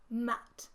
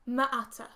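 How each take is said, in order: First: The word is blended with no added vowels. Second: The word is blended with extra vowel sounds. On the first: The speaker calls it right. "the way we should be sounding it out" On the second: The speaker calls it wrong. "using schwas for m and t"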